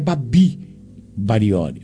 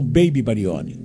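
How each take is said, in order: First: The first name has an open 'ah' vowel. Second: The first name sounds like English 'baby'. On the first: This is the name's proper form. The speaker calls it right. "o correto é Babi Barione" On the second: This is the form many people use. The speaker calls it wrong. "Eles usam Baby Barione"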